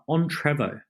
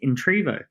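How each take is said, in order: First: The first syllable sounds like 'on'. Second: The first syllable sounds like 'in'. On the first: The speaker calls it wrong. "you pronounced the name uh, on Trevo" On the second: The speaker calls it right. "I think of it as Intrevo"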